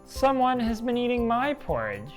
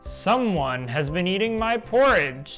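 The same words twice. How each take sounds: First: It is said in a middle-sized voice. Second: It is said in a great big voice.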